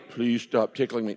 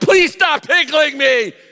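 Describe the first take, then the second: First: It is said flatly, without much feeling. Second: It is said intensely, with strong feeling. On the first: The request does not sound urgent. The speaker calls it wrong. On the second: The speaker truly cannot take any more. The speaker calls it right. "And you are passionate"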